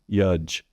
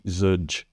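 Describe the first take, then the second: First: The word begins with a Y sound. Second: The word begins with a Z sound. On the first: "substituting a Y" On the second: "or a Z"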